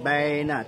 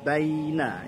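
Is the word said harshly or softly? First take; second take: harshly; softly. First: The word is said harshly, not softly. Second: The word is said softly and lightly. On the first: The speaker calls it wrong. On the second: The speaker calls it right. "baina lunak saja"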